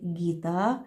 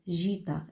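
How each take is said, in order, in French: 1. La première consonne est un g dur. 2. La première consonne est un zh doux. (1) "Il faut garder le son G" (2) "on va prononcer guitare, guitare. Et c'est faux"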